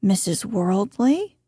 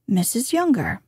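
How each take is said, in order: First: "Worldly" swept up like a question; rising inflection. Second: "Younger" lifted then falling to a close; statement of fact. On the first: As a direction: lift the end of "Worldly" as the more important name. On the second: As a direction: let "Younger" drop as a mere fact. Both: Shown as a demonstration. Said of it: "Use the same inflection exactly".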